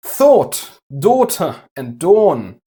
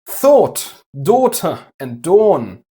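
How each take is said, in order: First: It is said in a posh British accent. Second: It is said in a posh British accent.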